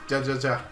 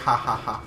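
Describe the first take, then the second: First: Each syllable begins with an English J sound. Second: Each syllable begins with an H sound. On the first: The speaker calls it wrong. "I will always read it that way" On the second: The speaker calls it right. "It's supposed to be like ha ha ha, but like in Spanish"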